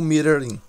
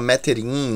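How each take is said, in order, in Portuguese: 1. É falado como duas palavras, 'meter' e depois 'in'. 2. É falado como uma palavra só, terminando em 'ing'. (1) "o certo é falar ou meter in" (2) "Tem gente que fala metering"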